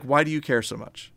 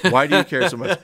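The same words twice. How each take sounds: First: Said in the usual way. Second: Laughing as she asks the same question again; laughing repeat. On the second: Retold or imitated. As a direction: say it again while cracking up. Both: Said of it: "Jennifer's like".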